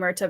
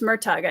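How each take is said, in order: First: The name ends on a vowel, no g. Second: The name ends with a hard g sound. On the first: The speaker calls it wrong. "I keep saying Murta" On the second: The speaker calls it right. "It's Murtag, I know"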